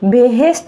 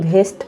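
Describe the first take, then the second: First: Two syllables, starting with a plain b sound. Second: One syllable, starting with an aspirated bh sound. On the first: The speaker calls it right. "বেহেস্ট এটা জানি" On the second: The speaker calls it wrong. "ভাতের ভ দিয়ে ভেস্ট লাগাই দিছে"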